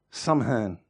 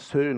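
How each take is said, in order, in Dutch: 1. Het wordt letter voor letter uitgesproken, als sam-hain. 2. Het wordt uitgesproken als één korte lettergreep, seun. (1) "Ik spreek het uit zoals je het schrijft" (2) "Het is meer iets van Seun of zoiets"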